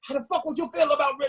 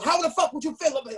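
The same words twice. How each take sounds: First: Fast, higher mock cop threat; tough talk. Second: Fast, high mock tough talk from a cop. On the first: Cop threatening him over Rick, mock tough talk. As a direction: push it quick and high like a bully cop. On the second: Cop tough-talking the rapper, fast high mock bark. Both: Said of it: "he's tough talking me".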